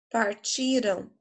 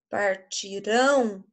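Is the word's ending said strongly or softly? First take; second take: softly; strongly. First: The ending of the word is said softly. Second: The ending of the word is said strongly. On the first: The action happened in the past. "mais suave, é passado" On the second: The action will happen in the future. "Partirão é futuro"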